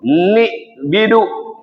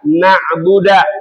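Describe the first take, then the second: First: The word has i vowels in both first syllables. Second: The word ends in an a vowel. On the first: "dikasrahkan nunnya" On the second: "kita baca fathah"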